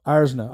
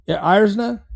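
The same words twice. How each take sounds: First: Irzna said lower with a firm falling end; decide on Irzna and state it plainly; settled falling statement. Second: Irzna asked as a question, pitch rising at the end; unsure rising guess. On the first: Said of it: "I'm just gonna say Irzna". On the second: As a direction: try the name Irzna tentatively, like asking. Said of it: "Is it maybe Irzna?". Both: Real, not acted.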